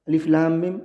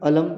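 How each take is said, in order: First: Each letter name is said separately. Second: The letters are run together as one word. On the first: The speaker calls it right. "तो काट काट कर पढ़ते हैं" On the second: The speaker calls it wrong. "ऐसा नहीं पढ़ते"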